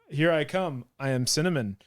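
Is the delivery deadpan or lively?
deadpan. It is said in a flat, deadpan voice. The reference was not recognized. "I just read it in a very deadpan voice in my head"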